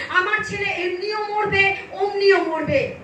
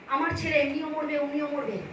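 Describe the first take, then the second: First: Mother's resolve, voiced firmly; retold desperate resolve. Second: Suddenly soft, resigned aside; hushed retelling. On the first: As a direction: retell her last-hope decision at full voice. Mother's resolve, first telling. (মায়ের মরিয়া সংকল্পের জোরালো অনুকরণ) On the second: Retold or imitated. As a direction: drop the voice right down for the parent's words. Same words, dropped to an aside. (হঠাৎ নিচু গলায় বাবা-মায়ের কথার অনুকরণ)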